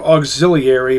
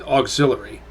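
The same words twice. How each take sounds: First: The word is sounded out as it is written. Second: The word is said in the common shortened way. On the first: "It's spelled auxiliary" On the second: "everyone pronounces it auxiliary"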